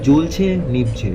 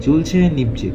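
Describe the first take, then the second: No difference in how they are said.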